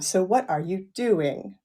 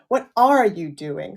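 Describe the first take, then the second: First: The word 'are' carries no special stress. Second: The word 'are' carries strong stress. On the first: "Falling tone" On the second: "Same same falling tone, but with a prominence on R"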